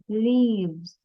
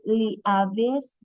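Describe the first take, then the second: First: The word is said as one syllable, leaves. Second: The word is split into two syllables, Lee-Avis. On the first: The speaker calls it right. "let me say it" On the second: The speaker calls it wrong. "isn't it Lee Avis? ... No"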